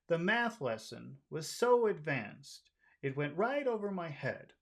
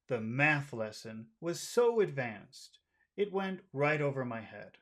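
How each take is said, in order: First: The sentence is said in a friendly, light tone. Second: The sentence is said in a serious, low tone. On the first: "I'll read the friendly one first" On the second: "let's try the serious one"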